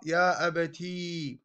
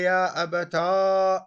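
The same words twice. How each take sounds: First: يا أبتي with a soft drawn-out final ī; second weak form. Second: يا أبتا said slowly, ending in a long ā; weak form demo. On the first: Teacher models the other weak form, slow and soft. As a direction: draw out the final ī of يا أبتي gently. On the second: Teacher models the weak form for students, slow. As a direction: stretch the final ā of يا أبتا. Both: Shown as a demonstration. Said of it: "الضعيفة القبيحة هي".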